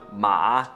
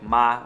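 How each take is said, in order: First: It is said with the third tone. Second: It is said light and quick, without tone. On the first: It means horse. "The third one" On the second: It turns a sentence into a question. "just like light and quick"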